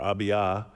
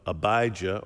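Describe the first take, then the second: First: The name is said in its original, non-anglicized way. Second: The name is said in an anglicized way. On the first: "or not" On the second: "whether you anglicize it"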